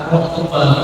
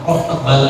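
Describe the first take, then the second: Both takes have the same delivery.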